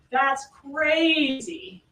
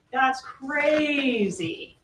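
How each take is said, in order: First: "crazy" drawn out very slowly, first syllable punched; very slow "That's crazy", leaning hard on "crazy"; mimicking stressed crazy. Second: "crazy" drawn out very slowly, first syllable stressed; slow, heavy "That's crazy", dragging "crazy"; mimicking stressed crazy. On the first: Prosecutor repeating the defendant's words to the jury, slow and stressed. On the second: Prosecutor imitating the defendant's reply for the jury, slow and stressed. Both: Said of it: "He says it like that".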